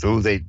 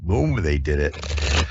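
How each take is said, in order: First: Said in the usual way. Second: "whom" said slowly as a correction; slow self-correction. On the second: Real, not acted. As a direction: lean on "whom", slower. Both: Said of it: "I gotta use the right who or whom".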